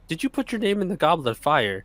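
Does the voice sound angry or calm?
calm. It is said gently and calmly. "gently in the book calmly says to him"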